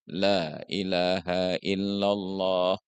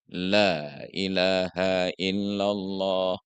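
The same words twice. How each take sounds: No difference in how they are said.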